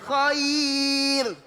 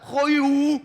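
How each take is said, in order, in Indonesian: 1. Kata khair diucapkan ringan dan tipis. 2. Kata khair diucapkan berat dan bulat.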